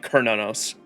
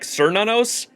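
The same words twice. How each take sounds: First: The name begins with a K sound. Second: The name begins with an S sound. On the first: The speaker calls it right. "it's pronounced with a K" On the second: The speaker calls it wrong. "it's spelt with a C, and you would want to say like"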